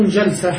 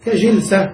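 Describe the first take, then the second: First: Jalsa, ja not ji; jalsa with fatha. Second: I-vowel in the first syllable of jilsa; jilsa, ji not ja; ka-jilsa with kasra. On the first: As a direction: say jalsa with an a after the jim. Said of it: "بالفتح". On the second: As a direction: say jilsa with an i after the jim. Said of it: "مكسور الفاء". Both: Shown as a demonstration.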